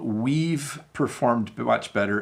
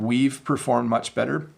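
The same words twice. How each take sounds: First: The V sound in we've is strong. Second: The V sound in we've is soft. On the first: "So I overpronounced it there" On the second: "So it's just a slight V sound"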